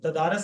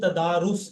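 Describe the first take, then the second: First: The last syllable has a short 'a' vowel. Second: The last syllable has a short 'u' vowel. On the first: The speaker calls it wrong. "तदारस नहीं" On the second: The speaker calls it right.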